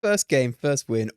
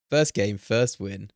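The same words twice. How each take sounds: First: Loud, punchy victory call; excited boast. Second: Loud and slow, stretching each word out; slow savoring. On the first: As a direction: shout the first win out proudly. Celebrating first win. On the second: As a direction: savor "First game, first win" word by word. Repeating the boast slowly. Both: Real, not acted.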